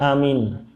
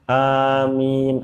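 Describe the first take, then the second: First: Both vowels are said short. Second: Both vowels are drawn out, the second longest. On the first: It means safe or trustworthy. The speaker calls it wrong. "amin berarti aman" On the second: It means please grant it. The speaker calls it right. "A-nya panjang tapi min-nya lebih panjang"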